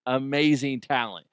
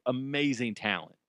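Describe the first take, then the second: First: "Amazing talent" again, louder, leaning on "Amazing"; emphatic repeat. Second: Said in the usual way. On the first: Real, not acted. Host praising his old colleague, louder emphatic "Amazing". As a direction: punch "Amazing" to drive the praise home.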